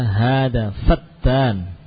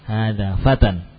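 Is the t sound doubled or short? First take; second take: doubled; short. First: The t sound is doubled and held. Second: The t sound is short and single. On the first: It means a slanderer. The speaker calls it wrong. "Fatan, jangan ditasydid. Jangan dibaca hada fatan" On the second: It means a young man. The speaker calls it right. "Hada fatan ini adalah seorang pemuda"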